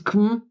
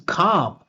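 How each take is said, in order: First: The syllable is short and reduced. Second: The syllable is stressed with a full vowel. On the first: "This is com" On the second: "This is calm"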